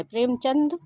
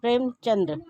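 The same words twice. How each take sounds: First: प्रेमचंद ending in a plain d; प्रेमचंद without a final r; correct pronunciation. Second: प्रेमचंद्र with an added r, "chandra"; प्रेमचंद्र with a final r cluster; wrong pronunciation. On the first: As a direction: end प्रेमचंद on "chand", no r. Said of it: "प्रेमचंद जो है शुद्ध है". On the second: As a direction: end प्रेमचंद्र in "dra". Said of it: "प्रेमचंद्र लिखा है जो कि अशुद्ध है". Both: Shown as a demonstration.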